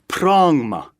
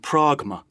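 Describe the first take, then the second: First: An ng sound comes before the m. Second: A hard g sound comes before the m. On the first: "gamma was pronounced ng also before mu" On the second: "rather than pragma"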